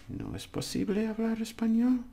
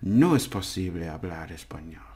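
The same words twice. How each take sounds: First: It is said with question intonation. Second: It is said as a plain statement. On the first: It asks whether speaking Spanish is not possible. "the question" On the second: It states that speaking Spanish is not possible. "And the negative"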